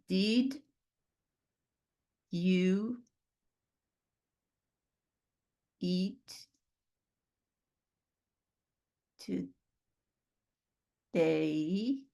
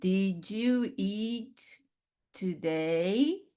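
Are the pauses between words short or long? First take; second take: long; short. First: It has long pauses between words. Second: It has only short pauses between words.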